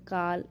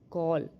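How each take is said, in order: First: The vowel is an open 'ah' sound. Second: The vowel is a rounded 'aw' sound. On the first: The speaker calls it wrong. "ऐसे करके नहीं पढ़ेंगे" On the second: The speaker calls it right. "वहाँ पे हम ओ करके इसका उच्चारण करेंगे"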